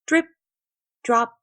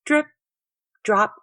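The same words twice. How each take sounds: The two takes are said the same way.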